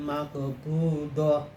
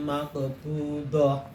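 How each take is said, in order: Both takes have the same delivery.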